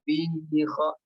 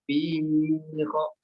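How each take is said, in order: First: The vowel in 'fi' is held for two beats. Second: The vowel in 'fi' is held for three beats. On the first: The speaker calls it right. "Harusnya dia mengikuti ayunannya" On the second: The speaker calls it wrong. "dibacanya tiga harokat"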